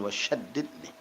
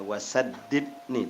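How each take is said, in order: First: The consonant is an sh sound. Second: The consonant is a plain s sound. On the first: It asks God to be harsh to one. The speaker calls it wrong. "Kalau syaddidni inti berarti minta Allah kejam sama inti" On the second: It asks God to make one steadfast. The speaker calls it right. "wasaddidni bukan wasyaddidni"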